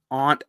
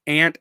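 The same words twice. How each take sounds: First: "aunt" with an open back vowel, "ahnt"; person pronunciation. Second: "aunt" said like the insect "ant", with a front a; insect pronunciation. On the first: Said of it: "aunt as in the person". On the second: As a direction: say "aunt" with the vowel of "cat". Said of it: "aunt as in the insect". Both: Shown as a demonstration.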